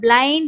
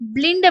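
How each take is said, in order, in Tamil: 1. இந்த உயிரெழுத்து 'eye' போல ஒலிக்கிறது. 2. இந்த உயிரெழுத்து குறுகிய 'ee' போல ஒலிக்கிறது. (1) "பிளைண்ட் அப்படின்றது தான் இந்த வேர்டோட கரெக்டான உச்சரிப்பு" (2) "பிளிண்ட் அப்படின்றது வந்து இதுல தப்பு"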